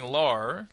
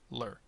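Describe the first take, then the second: First: The syllable is long with a full vowel. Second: The syllable is short with a reduced vowel. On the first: The speaker calls it wrong. "like I was at the beginning" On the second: The speaker calls it right. "now make it faster"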